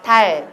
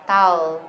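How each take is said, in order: First: 달 with a clear front L; Korean pronunciation. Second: 다오 low, tongue drawn back for dark L; English pronunciation. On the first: Teacher leading alternating drill, Korean 달 with firm L. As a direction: stop 달 with the tongue tip forward. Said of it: "한국어 한 번, 영어 한 번". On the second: Teacher leading alternating drill, English-style 다오. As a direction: slide the end of 다오 into a w. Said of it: "영어 한 번 해봐요". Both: Shown as a demonstration.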